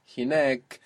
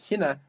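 First: Hinek with long stressed NEK; stress on last syllable. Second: Hina stressed on HI, short "na"; weight the first syllable of hina. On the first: Teacher contrasting where the accent moves, stress on NEK in hinek. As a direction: move the weight to the final long vowel of hinek. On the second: Teacher contrasting where the accent moves, stress on HI in hina. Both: Shown as a demonstration. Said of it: "we see the accent there move".

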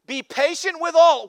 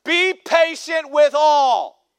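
First: "all" stretched and falling; stress on all. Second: "Be patient with all" slow, loud, each word spaced; slow emphatic quote. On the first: Pastor quoting scripture, weight on "all". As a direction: lean into "all" and let it drop. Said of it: "What? Are you kidding me?". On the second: Pastor repeating the verse, slow loud emphasis. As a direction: hammer "with all" down slowly. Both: Shown as a demonstration.

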